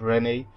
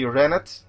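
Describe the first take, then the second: First: The name is said with a French pronunciation. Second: The name is said with an English pronunciation. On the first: "Well, I just did" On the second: "I'm not gonna pronounce this in the French way"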